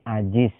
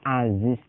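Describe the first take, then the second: First: The middle consonant is a j sound. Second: The middle consonant is a z sound. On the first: The speaker calls it wrong. "maka akan dibaca menjadi ajiz" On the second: The speaker calls it right. "aziz itu dibaca za"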